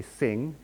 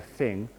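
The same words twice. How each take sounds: First: "sing", with th turned into an S; Japanese-accented th. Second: Said in the usual way. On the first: Shown as a demonstration. Lecturer showing students how Japanese speakers say th, S substitution. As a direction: say "sing" for thing, opening on S. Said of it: "pronounce the English th sound as an S". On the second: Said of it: "instead of thing".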